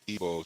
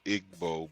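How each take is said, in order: First: It is sounded differently from its spelling. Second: It is sounded out just as it is spelled. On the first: "but it's Igbo" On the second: "spelled Igbo"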